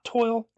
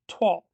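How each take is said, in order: First: It rhymes with oil, one syllable. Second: It sounds like twahl, one syllable. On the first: The speaker calls it wrong. "Not toil" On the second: The speaker calls it right. "the proper pronunciation is Toile, like T W A H L"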